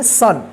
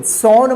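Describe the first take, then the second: First: "सन" said with a short UH vowel; correct SON reading. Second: "सॉन" said with an open AW vowel; wrong SON reading. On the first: Teacher gives learners the right reading, "सन" with short UH. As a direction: say "सन" to rhyme with "fun". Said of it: "इसको क्या पढ़ेंगे?". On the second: Teacher warns learners against this reading, "सॉन" with AW vowel. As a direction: say "सॉन" with AW as in "dawn". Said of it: "सॉन मत पढ़िएगा". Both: Shown as a demonstration.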